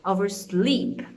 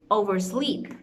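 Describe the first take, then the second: First: "Oversleep" slow with SLEEP punched; slow stressed demo. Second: "oversleep" with the weight on SLEEP; stress on second part. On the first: Teacher repeating the model word with emphasis. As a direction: drag out "Oversleep", landing hard on SLEEP. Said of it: "you know where the stress is gonna be". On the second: Teacher modelling compound verb stress. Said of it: "stress is gonna be in the second component". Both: Shown as a demonstration.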